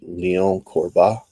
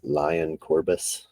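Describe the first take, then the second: First: The name is said the French way, final s silent. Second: The name is said the American way, final s sounded. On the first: "I believe you pronounce it" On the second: "as you would say in American"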